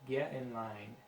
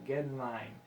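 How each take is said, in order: Both takes have the same delivery.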